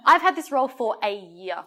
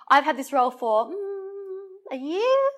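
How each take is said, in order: First: It is confident and said without pausing. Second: It is hesitant, with a filler pause. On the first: The speaker is sure of the fact. The speaker calls it right. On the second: The speaker is unsure of the fact. The speaker calls it wrong.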